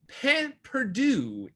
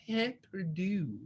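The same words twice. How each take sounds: First: Said in the usual way. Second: Pain perdu said slowly in a put-on French accent, with a soft breathy P. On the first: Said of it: "Can you hear my great French accent". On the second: Shown as a demonstration. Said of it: "great French accent coming through".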